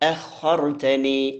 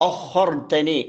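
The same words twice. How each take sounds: First: The opening vowel sounds light and thin. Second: The opening vowel sounds heavy and dark, like o. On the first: The speaker calls it right. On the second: The speaker calls it wrong.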